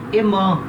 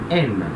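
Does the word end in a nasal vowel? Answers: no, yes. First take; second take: yes; no. First: The word ends in a nasal vowel. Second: The word ends without a nasal vowel. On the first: The speaker calls it wrong. "a gente tenderia a falar EMAN, né, porque tem o som de ON" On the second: The speaker calls it right. "esse E N T não vai ter som de ON. A gente fala M"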